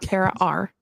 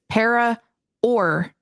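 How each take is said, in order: First: The second word sounds like the letter R. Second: The second word sounds like 'or'. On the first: The speaker calls it wrong. "not para R" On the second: The speaker calls it right. "it is para or normal"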